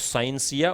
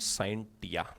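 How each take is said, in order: First: The middle consonant is an s sound. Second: The middle consonant is a t sound. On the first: "कुछ टीचर्स या कुछ स्टूडेंट इसको साइंसिया भी बोल देते हैं" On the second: "कुछ स्टूडेंट इसको साइंस टिया भी बोल देते हैं"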